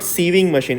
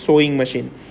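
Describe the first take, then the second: First: The first word lacks the 'oh' vowel sound. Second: The first word has the 'oh' vowel sound. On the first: The speaker calls it wrong. "It is not sieving machine" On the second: The speaker calls it right. "it is sewing machine"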